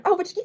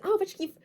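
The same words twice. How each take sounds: First: High, lightly voiced; high imitated self-talk; mock delighted self quote. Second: High, lightly voiced delighted remark; high imitated delighted exclamation; mock delighted quote. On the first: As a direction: pitch up, playing her own future self. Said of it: "quand je vais me dire". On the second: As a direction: pitch up to play a friend who suddenly loves it. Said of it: "Jusqu'à ce que tu me dises".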